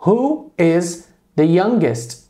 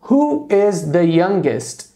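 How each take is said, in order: First: Slow, careful repeat of the question; slow model question. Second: Slow, careful model question. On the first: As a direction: repeat it slowly for the class. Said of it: "Tô perguntando". (pergunta modelo repetida devagar) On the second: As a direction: lay out each word for the class. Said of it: "por exemplo". (pergunta modelo bem devagar) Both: Shown as a demonstration.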